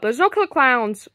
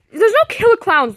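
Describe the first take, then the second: First: Said in the usual way. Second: Louder, sharp insistence; exasperated snap. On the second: Acted. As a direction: shut the worry down hard. Mario snaps at Luigi.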